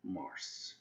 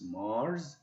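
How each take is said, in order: First: "Mars" said as mars with an s, like مارس; quiet, falling "Mars" ending in a hiss of s; the common mistake: "Mars" with a final s; wrong Mars. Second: "Mars" with a voiced z at the end, marz; teacher saying "Mars" the right way, final z; correct English Mars. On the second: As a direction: model "Mars" for students, ending on a buzzing z. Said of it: "So please correct your pronunciation". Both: Shown as a demonstration.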